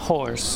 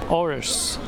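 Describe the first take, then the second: First: The word starts with a clear h sound. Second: The word starts with no h sound.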